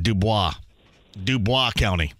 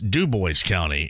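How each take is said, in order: First: Dubois is said with a French-style pronunciation. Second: Dubois is said with a plain English pronunciation. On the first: This is how an outsider said it. The speaker calls it wrong. "she pronounced it Dubois County" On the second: This is how locals say it. The speaker calls it right. "we know what Jasper and that surrounding area is Dubois County"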